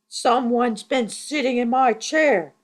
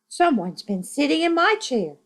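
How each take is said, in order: First: It is said in a big, deep voice. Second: It is said in a medium-pitched voice.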